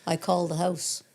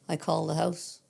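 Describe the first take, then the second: No difference in how they are said.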